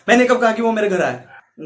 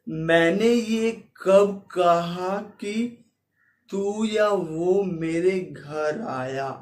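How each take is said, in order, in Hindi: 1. वाक्य तेज़ी से और जल्दी-जल्दी बोला गया है। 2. वाक्य धीमी गति से और खींचकर बोला गया है। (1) "एफपीएस को मैं कम कर दूंगा" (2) "स्लोमो में करूं"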